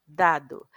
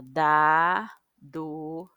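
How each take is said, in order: First: Said in the usual way. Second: "dado" very slow, stretched syllable by syllable; slow split "dado"; sounded out slowly. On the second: Shown as a demonstration. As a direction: draw "dado" out for the child. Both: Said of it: "tudo junto".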